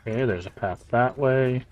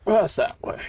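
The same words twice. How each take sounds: First: Said in the usual way. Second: Tiny squeaky playful voice; squeaky high voice. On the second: Pretend. Repeats his own remark in jest.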